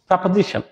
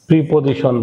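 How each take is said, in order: First: The first syllable is said as 'pre'. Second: The first syllable is said as 'pri'. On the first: The speaker calls it right. "শুদ্ধ উচ্চারণ হবে প্রিপজিশনের পরিবর্তে হচ্ছে প্রেপজিশন" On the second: The speaker calls it wrong. "আমাদের whole কান্ট্রিতে এই এই শব্দটাকে উচ্চারণ করা হচ্ছে প্রিপজিশন।"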